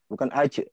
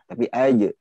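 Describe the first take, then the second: First: The j sound is breathy without throat vibration. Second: The j sound is voiced with throat vibration. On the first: The speaker calls it wrong. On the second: The speaker calls it right. "Di situ ada di tenggorokan itu ada getaran"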